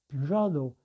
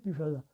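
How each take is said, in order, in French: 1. La voyelle finale se prononce 'oh'. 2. La voyelle finale se prononce 'ah'.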